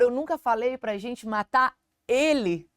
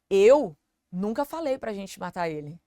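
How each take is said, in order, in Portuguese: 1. A palavra ele recebe a ênfase. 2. A palavra eu recebe a ênfase. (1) "Talvez não era pra matar ele, era pra matar outra pessoa" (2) "eu não falei, mas talvez você, ou talvez o Marcelo falou"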